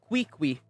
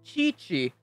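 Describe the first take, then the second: First: Each syllable begins with a 'k' sound. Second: Each syllable begins with a 'ch' sound. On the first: The speaker calls it wrong. "not Kui-Kui" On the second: The speaker calls it right. "So it's Chi-Chi"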